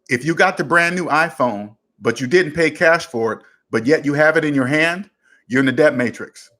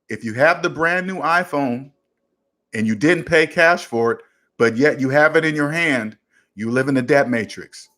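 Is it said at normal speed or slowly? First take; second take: normal speed; slowly. First: It is said at a normal speed. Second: It is said more slowly.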